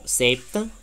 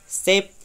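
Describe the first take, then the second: First: A short 'a'-like vowel follows the final consonant. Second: The word ends cleanly on its final consonant. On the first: "la pronuncian como si fuera una pequeña A" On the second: "la pronunciación internacional es"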